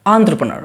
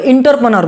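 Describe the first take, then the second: First: The word begins with an 'en' sound. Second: The word begins with an 'in' sound. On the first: The speaker calls it right. "लेकिन ये एंटरप्रेन्योर" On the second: The speaker calls it wrong. "कुछ लोग क्या बोलते हैं इसको इंटरप्रेन्योर बोलते हैं"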